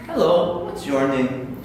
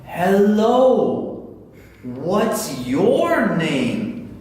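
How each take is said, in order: First: Said in the usual way. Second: Loud, very stretched-out words; mock over-slow teaching voice; exaggeratedly slow. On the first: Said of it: "Talk as normally as you possibly can". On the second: Shown as a demonstration. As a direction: talk down to a child who can't understand. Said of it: "If you talk to your child like that".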